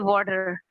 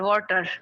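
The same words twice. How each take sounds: First: The middle consonant sounds like a d. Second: The middle consonant is a clear t. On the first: "But in American English we say water" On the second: "even water is also simple T"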